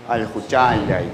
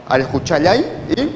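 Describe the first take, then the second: First: Slow al juchayay, falling and lower; second pronunciation. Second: Juchayay with a rising end; first pronunciation. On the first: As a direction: drop the voice through juchayay and slow it. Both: Shown as a demonstration. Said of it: "según la pronunciación, cambia el significado".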